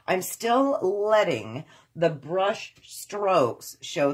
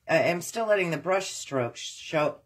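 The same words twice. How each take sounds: First: The sentence is spoken at a slower pace. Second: The sentence is spoken at a faster pace.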